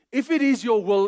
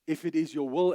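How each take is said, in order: First: "If it is your will" asked as a question, louder and higher; asking tune. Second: Said in the usual way. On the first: Shown as a demonstration. Preacher showing a doubtful prayer, asked as a question. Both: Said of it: "is a question".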